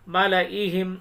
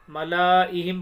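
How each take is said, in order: Both takes have the same delivery.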